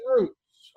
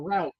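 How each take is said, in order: First: "routes" rhyming with boots; routes said as "roots". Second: "routes" said as "rowts"; routes rhyming with shouts. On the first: Preacher names two main ways north, "routes" as "roots". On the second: Preacher offers the other way to say it, "routes" as "rowts". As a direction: say "routes" to rhyme with outs. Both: Shown as a demonstration. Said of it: "however you want to say it".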